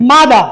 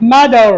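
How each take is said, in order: First: "মাদার" ending on an open "a"; r-less pronunciation. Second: "মাদার" ending in a held English r; r-coloured pronunciation. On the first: Teacher showing first of two right forms, silent r. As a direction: drop the final r of "মাদার". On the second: Teacher showing second right form, sounded r. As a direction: curl the tongue on the end of "মাদার". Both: Shown as a demonstration. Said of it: "দুটি আমরা বলতে পারি".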